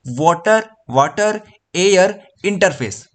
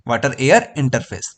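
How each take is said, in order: First: Slow teaching drill. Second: Said in the usual way. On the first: Shown as a demonstration. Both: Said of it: "तो कैसे बताओगे?".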